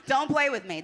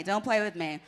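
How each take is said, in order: First: Cold greedy landlord. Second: Said in the usual way. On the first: Pretend. Landlord persona continues.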